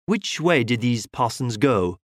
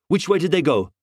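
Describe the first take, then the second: First: Said in the usual way. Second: Curt impatient snap; snapped. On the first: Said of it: "asked Valentin". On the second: A narrator's reading. Detective cutting off the constable, snapping. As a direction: cut him off sharply. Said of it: "snapped Valentin".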